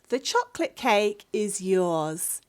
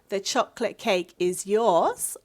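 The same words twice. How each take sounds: First: It is said with statement intonation. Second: It is said with question intonation. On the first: The speaker is telling the listener the cake belongs to them. "if you are making a statement" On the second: The speaker is asking whether the cake belongs to the listener. "This should be a question"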